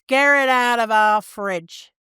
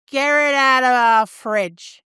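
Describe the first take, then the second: First: Slow, mild Northern British take on the slogan; repeating the advert's catchphrase in a light Northern voice; mock Northern accent catchphrase. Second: Slow, lightly voiced Northern British complaint; imitating the fat slags from the advert, drawn out; mock Northern accent. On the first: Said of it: "That's the catchphrase". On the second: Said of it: "And they say".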